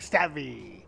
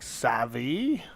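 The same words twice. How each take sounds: First: The word is said short and plain. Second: The word is drawn out longer.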